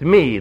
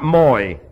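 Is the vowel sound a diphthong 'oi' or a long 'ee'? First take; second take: ee; oi. First: The vowel is pronounced as a long 'ee'. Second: The vowel is pronounced as the diphthong 'oi'. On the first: The speaker calls it right. "It's me. ... combines together to end up as a long E" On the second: The speaker calls it wrong. "the diphthong is not moi"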